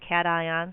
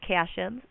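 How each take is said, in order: First: The first syllable sounds like the word 'cat'. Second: The first syllable does not sound like 'cat'. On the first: This is the way the speaker learned it. "I was taught it as cations ... I like cats" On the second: Other people say it this way. "I've also heard them referred to as cations"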